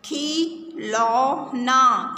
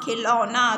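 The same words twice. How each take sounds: First: Drawn-out slow reading; slow careful word. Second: Said in the usual way. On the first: Shown as a demonstration. Teacher reading the word slowly to the class. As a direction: stretch the word out slowly for children. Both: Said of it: "ये शब्द जो खिलौना है, इसे ध्यान से देखो".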